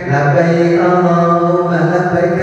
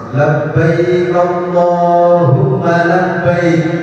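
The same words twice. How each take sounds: First: It is said offhandedly, as a mere routine. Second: It is said with deep, heartfelt feeling.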